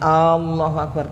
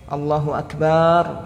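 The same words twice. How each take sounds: First: The opening vowel of Allahu is drawn out. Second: The vowel after b in Akbar is drawn out. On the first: "Tidak memanjangkan alif ... Jangan Allahu Akbar tapi al pendek" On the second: "ba-nya juga tidak dipanjangkan. Allahu Akbar tidak sah"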